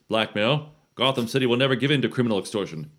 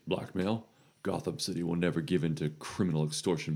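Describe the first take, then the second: First: It is said at a louder volume. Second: It is said at a quieter volume.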